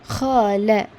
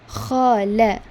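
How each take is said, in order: No difference in how they are said.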